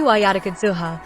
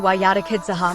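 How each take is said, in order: First: The word ends with a u vowel. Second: The word ends with an a vowel. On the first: It is linked grammatically to the verb 'to buy'. "if read Rafa" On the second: It is linked grammatically to the verb 'to mislead'. "If read nashab"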